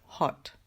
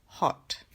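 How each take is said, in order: No difference in how they are said.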